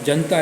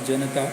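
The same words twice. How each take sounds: First: The middle n is said without a vowel. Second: The middle n is followed by a short vowel. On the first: The speaker calls it wrong. "ऐसा बीच के न को हलंत करके" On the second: The speaker calls it right. "ज हलंत अधिक अ अधिक न हलंत अधिक अ अधिक त हलंत अधिक आ"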